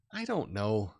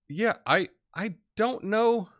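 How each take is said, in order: First: Said in the usual way. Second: A high, slow, drawn-out "I don't know"; doubtful. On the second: Real, not acted. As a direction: stretch out your doubt, pitched up. Unsure reply to viewer comment.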